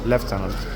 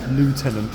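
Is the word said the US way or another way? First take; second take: another way; US. First: It is said with a non-US pronunciation. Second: It is said with the US pronunciation. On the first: The speaker calls it right. "I know full well it's lieutenant" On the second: The speaker calls it wrong. "which is the U S pronunciation"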